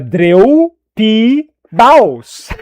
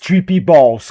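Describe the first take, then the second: First: It is said with a Brazilian Portuguese accent. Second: It is said with a plain English accent.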